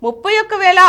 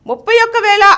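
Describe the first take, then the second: No difference in how they are said.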